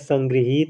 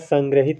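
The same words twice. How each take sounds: First: The 'hi' syllable has a long vowel. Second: The 'hi' syllable has a short vowel. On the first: The speaker calls it right. "हा पर बड़ी की मात्रा रहेगी" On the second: The speaker calls it wrong. "संग्रहित नहीं होता है"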